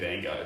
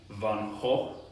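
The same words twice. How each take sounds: First: The name is said with American pronunciation. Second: The name is said with Dutch pronunciation.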